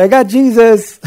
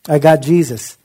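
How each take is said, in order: First: Much higher and louder, with a laugh; imitating Carrie. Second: Said in the usual way. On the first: Carrie telling his eye doctor, imitated high, loud and laughing. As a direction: mimic his proud declaration fondly. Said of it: "he would go ... and say". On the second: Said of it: "He would say that all the time".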